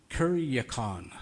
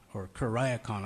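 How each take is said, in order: First: Kuriakon said slowly as kur-ee-a-kon; trying a pronunciation. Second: Kuriakon said as kur-eye-a-kon; alternate pronunciation. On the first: Preacher testing how to say kuriakon, slowly as kur-ee-a-kon. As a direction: sound out kuriakon carefully, with an ee in the middle. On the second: Preacher offering the other way to say kuriakon, kur-eye-a-kon. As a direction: try kuriakon again with an eye sound in the middle. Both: Shown as a demonstration. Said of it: "I'm not sure which way it is".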